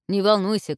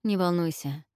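First: Louder reassurance; loud call. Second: Softened. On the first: Guard shouts to the princess, loud call. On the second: Zhelan calms Olga, softened voice. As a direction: say it gently. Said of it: "Желан смягчил голос". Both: A narrator's reading.

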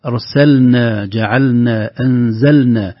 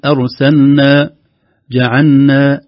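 First: أرسلنا، جعلنا، أنزلنا with every ل distinct before n; clear lam. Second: Slow أرسلنا، جعلنا with ل swallowed into a doubled n; merged lam. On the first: Teacher corrects the merging, clear lam. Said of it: "لو لم نظهر اللام". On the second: Teacher shows the common mistake, lam merged into noon. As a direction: say أرسلنا، جعلنا as "arsanna, ja'anna". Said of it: "كأننا ندغم اللام في النون". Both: Shown as a demonstration.

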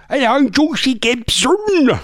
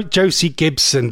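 First: High, slow caricature voice; exaggerated impression, raised and drawn out; Josie Gibson. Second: Said in the usual way. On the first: Host attempting a TV presenter's voice, high caricature. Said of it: "I can't remember how she talks now". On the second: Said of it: "I can't remember how she talks".

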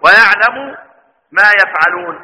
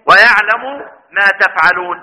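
First: يفعلون with the yaa of absence, "ya-f'alun"; reading with ya. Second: تفعلون with the taa of address, "ta-f'alun"; reading with ta. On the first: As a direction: open يفعلون with a clear y sound. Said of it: "والباقون هو ايه". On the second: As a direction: stress the opening ت of تفعلون clearly. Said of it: "صحاب يبقى يقرؤون ايه". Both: Shown as a demonstration.

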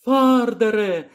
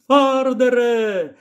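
First: Second high, drawn-out call. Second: Put-on high, drawn-out girl's call. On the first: Acted. Lyra hails the old man again from the basket, high drawn-out call. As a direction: call his name once more, slowly. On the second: Lyra hails the old man from the basket, high drawn-out call. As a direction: call his name across the field. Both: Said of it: "гукнула Ліра".

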